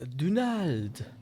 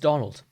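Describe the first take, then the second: First: The name is said with a French pronunciation. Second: The name is said with an English pronunciation. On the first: This is how French teachers said the name. The speaker calls it wrong. "French teachers would, would always pronounce it like" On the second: This is how the name is really said. The speaker calls it right. "no, it's"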